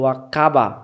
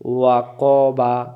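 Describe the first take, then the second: First: The k sound is light and thin. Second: The k sound is heavy and thick. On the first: The speaker calls it wrong. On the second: The speaker calls it right.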